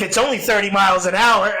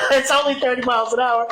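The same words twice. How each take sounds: First: Said in the usual way. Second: Mocking his own excuse through a laugh; laughing self-mockery. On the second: Laughing at his own excuse, mocking it.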